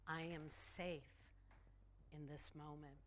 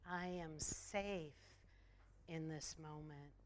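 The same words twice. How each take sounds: First: Calm affirmation. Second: Slow affirmation. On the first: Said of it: "And we can affirm". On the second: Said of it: "Affirm that with me". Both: Shown as a demonstration.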